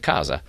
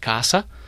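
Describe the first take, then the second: First: It is said with a northern Italian pronunciation. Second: It is said with a southern Italian pronunciation. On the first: "Al nord si dice casa" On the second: "al sud si dice casa"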